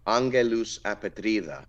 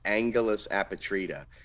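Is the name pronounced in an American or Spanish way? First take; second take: Spanish; American. First: The name is said with a Spanish accent. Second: The name is said with an American English accent. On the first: "I think it's pronounced Angelus apatrida" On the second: "like in the American English way"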